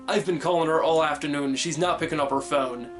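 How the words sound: It is spoken in an American accent. "And an American would say"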